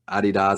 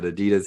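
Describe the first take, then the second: First: The name is said the European way. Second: The name is said the American way. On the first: "as they say in Europe" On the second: "but Adidas here"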